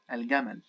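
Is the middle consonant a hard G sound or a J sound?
hard G. The word has a hard g sound. This is the Egyptian dialect form. "Al-Gamal as pronounced in the Egyptian dialect"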